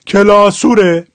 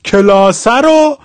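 First: Slow Shirazi کلاسوره, ending in u-re; Shirazi accent. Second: Said in the usual way. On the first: Shown as a demonstration. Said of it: "حال شیرازیش". (کلاسوره آهسته با لهجهٔ شیرازی) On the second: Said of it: "فتحه شد او".

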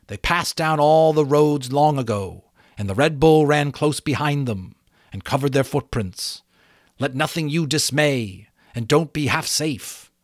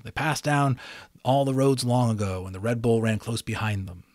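First: Butterfly warning of the Red Bull. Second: Said in the usual way. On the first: A narrator's reading. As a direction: warn her gravely. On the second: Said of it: "the fateful lines I always remember".

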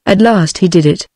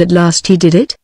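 First: "At last he did it" without the questioning rise; confirming statement. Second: "at last he did it" rising at the end; questioning. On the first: Clayton confirms the question just asked. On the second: Sanderson asks, Clayton then confirms. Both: A narrator's reading.

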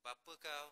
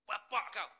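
First: Said in the usual way. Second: "Bapa kau." with a hard fall and "bapa" hit louder; sharper intonation. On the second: Shown as a demonstration. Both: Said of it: "dia orang panggil intonasi".

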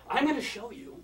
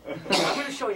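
First: "I'm gonna show you." pitched high, then a held silence; dramatic pause. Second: Said in the usual way. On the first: Shown as a demonstration. Magician teasing the crowd with "I'm gonna show you.", dramatic pause after. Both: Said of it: "Notice the dramatic pause".

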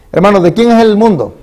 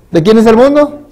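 First: Pregunta alta y enérgica al público; pregunta predicada. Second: Más agudo y fuerte, subiendo al final; pregunta repetida más alta. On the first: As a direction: lanzar la pregunta a los hermanos con fuerza. (predicador interpela a la congregación con voz alta) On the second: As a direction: repetir la pregunta aún más arriba, insistiendo. (predicador insiste ante la congregación, más agudo y fuerte) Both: Acted.

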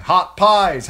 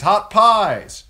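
First: Much higher, loud vendor's call; street cry. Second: Even higher, loud vendor's call; street cry again, higher. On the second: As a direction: sell pies to the whole street. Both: A narrator's reading.

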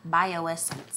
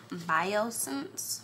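First: "Bioessence" in four syllables, by-oh-ESS-ence; corrected pronunciation. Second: "Biosense" run into three syllables, BY-oh-sense; mispronounced name. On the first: Vlogger retrying an eye cream brand, "Bioessence" as by-oh-ESS-ence. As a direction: sound out "Bioessence" with the "ess" restored. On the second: Vlogger stumbling over an eye cream brand, "Biosense" shortened. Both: Real, not acted. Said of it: "do not know how to pronounce".

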